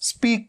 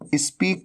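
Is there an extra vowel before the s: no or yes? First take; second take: no; yes. First: The word starts directly with the s sound. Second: An extra i vowel comes before the s. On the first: The speaker calls it right. "स्पीक की जगह पे" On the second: The speaker calls it wrong. "ई से शुरू होने वाले word जैसे स्पीक"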